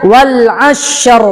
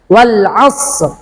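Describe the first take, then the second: First: The final r is strongly rolled with several trills. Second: The final r is pronounced lightly without heavy trilling. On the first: The speaker calls it wrong. "tidak wal asyr. Tidak begitu" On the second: The speaker calls it right. "Tidak masalah"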